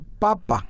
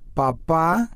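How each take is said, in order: First: The stress is on the first syllable. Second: The stress is on the last syllable. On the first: It means potato. "y papa" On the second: It means father. "papá es el papá, depende cómo lo pronuncias"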